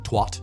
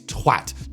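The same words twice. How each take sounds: First: The vowel rhymes with hot. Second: The vowel rhymes with hat. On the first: The speaker calls it wrong. "Americans twat with hot. And the word feels like it loses so much punch when you pronounce it twat" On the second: The speaker calls it right. "It's twat"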